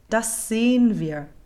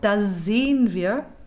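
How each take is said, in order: First: One voiceless s sound joins the first two words. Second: A voiced z sound joins the first two words. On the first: The speaker calls it right. "a German will sing just an unvoiced das sehen wir" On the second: The speaker calls it wrong. "What we cannot do is make them both voiced"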